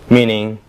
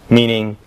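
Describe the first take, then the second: No difference in how they are said.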